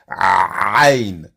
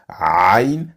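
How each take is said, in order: First: The sound is pushed out hard from deep inside. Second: The sound is made softly and calmly. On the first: "comme si vous alliez vomir" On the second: "vous vous calmez, vous faites doucement"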